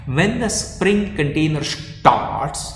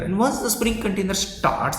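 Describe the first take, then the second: First: Slow, stretched stress on "starts"; very slow and deliberate, leaning hard on "Spring" and "starts"; emphatic. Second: Said in the usual way. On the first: Real, not acted. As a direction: drive the point home, drawing out "starts". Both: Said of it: "I am emphasizing on the point".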